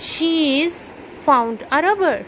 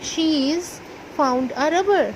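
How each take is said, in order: First: She has is contracted to one syllable. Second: She has is contracted to one syllable.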